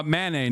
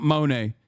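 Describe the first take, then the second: First: "Manet" with a short "a" in the first syllable; "Manet", first vowel as in "man"; corrected pronunciation. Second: "Monet" with an "o" in the first syllable; "Monet", first vowel as in "moan"; mistaken name. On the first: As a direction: say "Manet" as ma-NAY. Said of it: "not Monet". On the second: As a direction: say "Monet" as mo-NAY. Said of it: "Uh, Manet, not Monet". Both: Shown as a demonstration.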